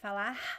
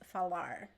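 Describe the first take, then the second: First: The final R is the Rio and northeastern kind. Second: The final R is a retroflex R. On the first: The speaker is from the northeast or Rio de Janeiro. "People from the northeast and Rio de Janeiro would say falar" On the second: The speaker is from small towns in São Paulo state or Paraná. "the retroflex R, which is falar"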